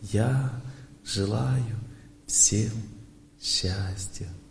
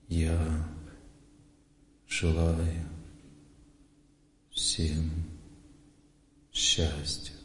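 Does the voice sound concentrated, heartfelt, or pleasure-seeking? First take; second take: heartfelt; concentrated. First: It is said sincerely, with deep warm feeling. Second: It is said calmly, with focused inward concentration. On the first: The wish comes sincerely from the heart. The speaker calls it wrong. "вот я сейчас говорю от сердца вам" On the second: The wish comes from remembering a revered teacher. The speaker calls it right. "я сейчас вспомню своего наставника, вот сейчас я сосредоточусь"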